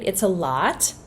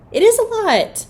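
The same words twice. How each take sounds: First: Said in the usual way. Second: "is" pitched way up and louder; stress on "is". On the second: Real, not acted. Mom conceding the yelling is hard, "is" emphatically raised. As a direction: insist on "is", lifting it high.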